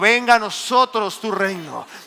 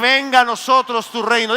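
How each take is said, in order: First: It is said at a normal, softer volume. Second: It is said louder than before.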